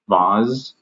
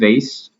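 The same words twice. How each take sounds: First: The final consonant sounds close to a Z. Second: The final consonant is a plain S sound. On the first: "more of like a vibrant sound to the S. It sounds almost similar to a Z" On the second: "I pronounce it vase"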